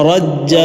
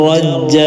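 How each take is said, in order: The two takes are said the same way.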